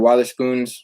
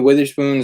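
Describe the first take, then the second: First: The first syllable sounds like 'wah'. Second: The first syllable sounds like 'with'. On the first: The speaker calls it right. "it's like wa, not with" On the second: The speaker calls it wrong. "people are saying it wrong"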